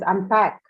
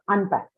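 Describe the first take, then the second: First: The stress is on the second syllable. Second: The stress is on the first syllable. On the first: The speaker calls it right. "So it is unpack" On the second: The speaker calls it wrong. "not unpack"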